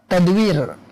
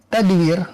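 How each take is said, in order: The two takes are said the same way.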